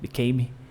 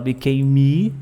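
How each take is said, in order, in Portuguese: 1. A palavra termina com os lábios fechando no M. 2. Um som de vogal extra vem depois do M final. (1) "Fala só o became. Só o lábio fechando ali a letra M já era" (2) "aqui não fala became me"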